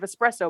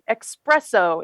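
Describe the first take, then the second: First: The word begins with an 'es' sound. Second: The word begins with an 'ex' sound. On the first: The speaker calls it right. "instead of espresso" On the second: The speaker calls it wrong. "you say like ec- the espresso instead of"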